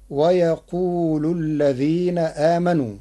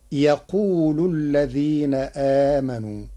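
First: Said in the usual way. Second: يقول with no wa before it and the lam on u; Warsh reading. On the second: Shown as a demonstration. Teacher reciting the Warsh variant to the class. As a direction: start straight on يقول, saying yaqulu. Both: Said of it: "بحذف الواو ... مع رفع اللام".

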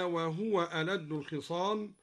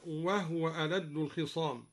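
First: Said in the usual way. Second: وهو said wahw, ha without its vowel; وهو with a silent ha. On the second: Shown as a demonstration. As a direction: read وهو as wahw, not wahuwa. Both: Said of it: "أسكن الهاء هكذا".

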